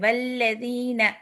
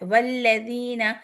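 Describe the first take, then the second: Both takes have the same delivery.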